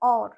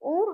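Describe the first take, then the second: First: The vowel is an open 'aw' sound. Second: The vowel is a closed 'o' sound. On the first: The speaker calls it right. "অ ও আর র, और উচ্চারণ হবে" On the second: The speaker calls it wrong. "ওর হবে না"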